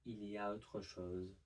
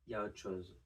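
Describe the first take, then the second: First: The L and final re are pronounced. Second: The L and final re are dropped. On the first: "instead of" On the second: "would become"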